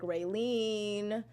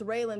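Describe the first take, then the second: First: The last syllable sounds like 'leen'. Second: The last syllable sounds like 'lan'. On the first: The speaker calls it wrong. "people always say like Raylene" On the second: The speaker calls it right. "my name is like that too. It's Raylan"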